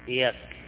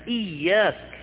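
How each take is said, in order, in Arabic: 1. الياء قصيرة ومفردة. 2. الياء طويلة ومشددة. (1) "إياك بدون شدة هو قرص الشمس" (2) "أما إياك غير"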